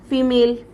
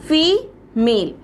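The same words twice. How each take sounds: First: Said in the usual way. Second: female slowly split in two, a long pause between the syllables; two separate, drawn-out beats in female; broken into syllables. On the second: Shown as a demonstration. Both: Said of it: "आप इसकी spelling को दो बार तोड़ सकते हो".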